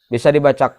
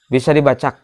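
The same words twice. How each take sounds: No difference in how they are said.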